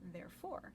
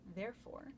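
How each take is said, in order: First: The stress is on the second syllable. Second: The stress is on the first syllable. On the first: "the emphasis is on the second syllable" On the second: "the emphasis is on the first syllable"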